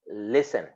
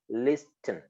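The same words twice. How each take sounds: First: The T sound is silent. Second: The T sound is clearly pronounced. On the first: It is how the word is normally said. "but it is pronounced listen" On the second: It shows how the word is spelled. "It is written listen"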